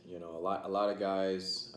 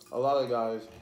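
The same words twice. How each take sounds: First: Talking while chewing; words round a bite of food; mouth full. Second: Louder, clearer restart after swallowing. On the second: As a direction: start over loud and clear. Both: Real, not acted. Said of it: "I'm sorry if I'm talking my mouth full".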